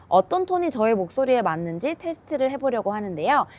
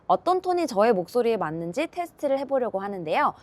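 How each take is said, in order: No difference in how they are said.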